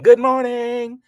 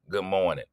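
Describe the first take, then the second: First: It is yelled loudly. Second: It is said at normal volume.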